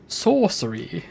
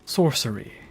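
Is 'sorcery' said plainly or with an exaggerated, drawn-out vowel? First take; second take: exaggerated; plain. First: An extra 'u' vowel is forcefully added. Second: The word is said in a plain, ordinary way.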